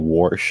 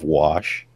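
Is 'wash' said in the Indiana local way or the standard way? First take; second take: Indiana; standard. First: It is said with the local Indiana pronunciation. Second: It is said with the usual standard pronunciation. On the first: "We say wash" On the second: "instead of wash"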